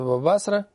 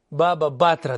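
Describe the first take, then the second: First: It uses the Ashkenazi Hebrew pronunciation. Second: It uses a non-Ashkenazi Hebrew pronunciation.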